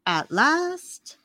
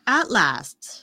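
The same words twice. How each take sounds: First: "last" rising high at the end; questioning echo. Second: "last" falling to a firm close; declarative echo. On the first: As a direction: lift "last" up like a playful question. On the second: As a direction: bring "last" down like a settled statement. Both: Pretend. Echoes phrase two ways.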